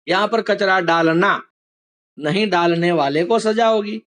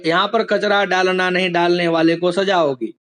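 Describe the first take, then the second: First: There is a pause right before नहीं. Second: It runs on without a clear pause anywhere. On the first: The speaker calls it right. "एक वाक्य में अल्प विराम नहीं के पहले था" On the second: The speaker calls it wrong. "ऐसे ही बोल दूं ... तो कुछ मीनिंग समझ में आएगा नहीं"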